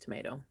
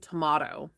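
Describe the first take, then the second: First: It is said the American way. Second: It is said the British way.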